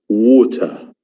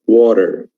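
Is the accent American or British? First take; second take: British; American. First: It is said in a British accent. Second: It is said in an American accent. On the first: "It is in British English" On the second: "But in American English"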